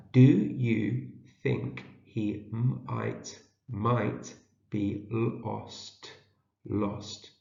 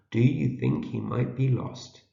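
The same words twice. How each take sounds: First: Very slow, gaps between words and sounds; sounding out. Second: Said in the usual way. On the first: Shown as a demonstration. Teacher decodes a question for early readers, sounding out. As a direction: stretch and split the words, then blend. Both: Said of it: "see if we can read it".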